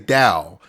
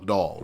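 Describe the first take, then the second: First: The word ends without an L sound. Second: The word ends with a clear L sound. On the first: This is how the speaker's wife and her family say it. "Like that's how they say doll. They say Dow" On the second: This is how the speaker has always said it. "I've said doll all my life. You know, D O L L, doll"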